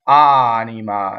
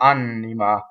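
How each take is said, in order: First: The N between the vowels is short. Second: The N between the vowels is held long. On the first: The speaker calls it right. "single N in the middle of vowels never does that" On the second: The speaker calls it wrong. "It's not anima"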